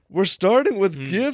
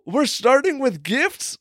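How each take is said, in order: First: It sounds doubtful and reluctant. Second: It sounds eager and excited. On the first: Gifts should be saved for later. "I didn't mean like, we're starting with gifts. Shouldn't we save it for later?" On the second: Starting with gifts is welcome. "oh, we're starting with gifts? Like, goody"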